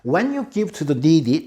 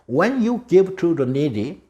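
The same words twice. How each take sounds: First: It is said a bit faster. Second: It is said slowly.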